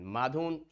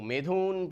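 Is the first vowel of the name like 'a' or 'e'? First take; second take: a; e. First: The first vowel sounds like 'a'. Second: The first vowel sounds like 'e'. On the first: The speaker calls it right. "it's not Medhun, Madhun" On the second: The speaker calls it wrong. "sorry for wrong pronunciation"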